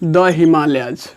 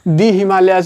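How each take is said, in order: First: 'The' is said with a short 'uh' vowel. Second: 'The' is said with a long 'ee' vowel. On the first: The speaker calls it right. "द पढ़ते हैं" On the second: The speaker calls it wrong. "दी हिमालयाज नहीं"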